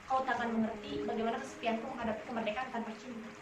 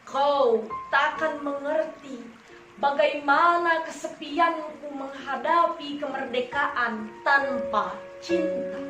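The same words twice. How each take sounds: First: It is read flat, with even pitch and tempo. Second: It is read with varied pitch and tempo. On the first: The speaker calls it wrong. "Contohnya ini yang flat, jangan ditiru" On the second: The speaker calls it right. "menggunakan intonasi yang benar seperti ini"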